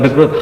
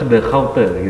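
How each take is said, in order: First: The name is said sounding like 'Groot'. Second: The name is said sounding like 'Hauter'. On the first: The speaker calls it wrong. "jadi bacanya itu bukan The Groot" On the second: The speaker calls it right. "The Hauter sebenarnya"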